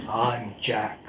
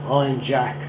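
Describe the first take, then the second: First: Softer, lower Geordie I'm Jack; a quieter redo in Geordie; Geordie accent, second try. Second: Two words in a Geordie accent; a quick Geordie-accented I'm Jack. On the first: Lecturer repeats on request, softer Geordie accent. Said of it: "I'll do it again for you". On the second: Lecturer tries Geordie for the audience, Geordie accent. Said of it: "I won't attempt the accent ... I can do two words". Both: Shown as a demonstration.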